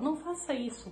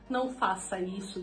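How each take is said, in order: First: It is said in a helpful, teaching tone. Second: It is said in an aggressive tone.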